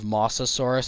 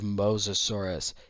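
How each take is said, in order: First: The first syllable sounds like 'moss'. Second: The first syllable sounds like 'mose'. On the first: The speaker calls it wrong. "the classic pronunciation error of Mosasaurus" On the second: The speaker calls it right. "It's not moss lizard, it's Mose lizard"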